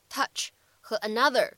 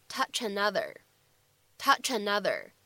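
First: Said in the usual way. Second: "touch another" joined as "tou-chanother"; linked words. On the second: Shown as a demonstration. Teacher showing learners linking in "touch another". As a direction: slide the ch of "touch" straight into "another", slowly. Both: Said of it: "我们可以做一个连读".

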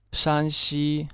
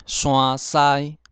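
First: Said in the usual way. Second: 山西 as "suann-sai", louder; Hokkien reading. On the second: Shown as a demonstration. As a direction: say 山西 in Hokkien with nasal "sua" and "sai". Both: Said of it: "省份从第一个".

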